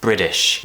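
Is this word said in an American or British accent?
American. It is said in an American accent. "An American would pronounce this as"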